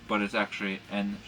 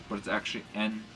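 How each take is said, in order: No difference in how they are said.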